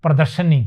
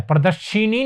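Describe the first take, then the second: First: प्रदर्शनी as "pra-dar-sha-ni", falling; correct pronunciation. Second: प्रदर्शिनी with "shee" in the middle; wrong pronunciation. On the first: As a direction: give the right form, प्रदर्शनी with "sha". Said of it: "लगकर क्या बनेगा". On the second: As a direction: show the error, प्रदर्शिनी as "pra-dar-shi-ni". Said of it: "नहीं होता". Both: Shown as a demonstration.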